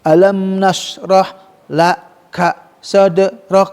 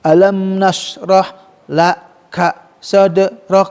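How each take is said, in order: First: It is broken up haltingly with short vowels. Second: It is broken up haltingly with short vowels.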